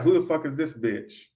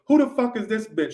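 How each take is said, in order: First: Said in the usual way. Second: Put-on higher, indignant girlfriend quote from Friday; Craig's girlfriend from Friday. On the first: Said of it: "I got". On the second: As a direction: pitch it up like the jealous girlfriend bursting in. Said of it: "and she goes".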